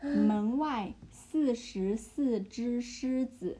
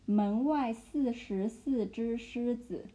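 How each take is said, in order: First: 门外四十四只狮子 even slower, spaced syllables; 门外四十四只狮子 at half speed; slower repeat. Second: 门外四十四只狮子 said slowly, each syllable apart; slow chunked demo. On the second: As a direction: drill 门外四十四只狮子 word by word. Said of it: "like, chunk it". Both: Shown as a demonstration.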